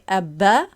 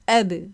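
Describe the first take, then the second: First: The final b is released into a full vowel. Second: The final b ends with a short bounce. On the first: The speaker calls it wrong. "we can't say abba" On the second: The speaker calls it right. "we can say ab. Like this, we can just bounce"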